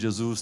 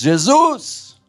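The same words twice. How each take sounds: First: It is said quietly and weakly. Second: It is shouted loudly.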